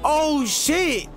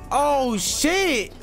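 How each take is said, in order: Both takes have the same delivery.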